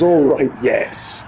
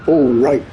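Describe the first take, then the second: First: Slow, drawn-out, satisfied "Oh, right, yes"; mock complacent. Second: A loud, higher offhand "Oh, right"; mock offhand reply. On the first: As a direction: take your time, pleased and unbothered. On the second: Translator brushing off the panicking guy, loud offhand. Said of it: "Korean woman's sort of going".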